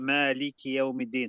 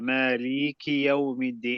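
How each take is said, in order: First: The vowel after the L is kept short. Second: The vowel after the L is drawn out long.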